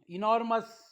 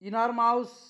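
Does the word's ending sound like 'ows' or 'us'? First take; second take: us; ows. First: The ending is a short 'us' sound. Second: The ending is a long 'ows' sound. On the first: The speaker calls it right. "पुन्हा वाचून दाखवतो" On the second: The speaker calls it wrong. "असं नाही"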